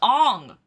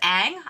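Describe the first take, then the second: First: The name is said with an 'o' vowel. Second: The name is said with an 'a' vowel. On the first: "I also said it with a Russian accent because in Russia we call him Ong" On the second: "in American version it was Ang"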